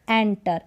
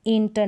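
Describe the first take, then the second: First: एंटर with an open e and a retroflex t; एंटर, open vowel; एंटर modelled for the class; correct pronunciation. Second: एंटर with a closed e; एंटर, the way not to say it; एंटर, the mistake to avoid; wrong pronunciation. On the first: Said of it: "इसका pronunciation है". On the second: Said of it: "एंटर नहीं". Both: Shown as a demonstration.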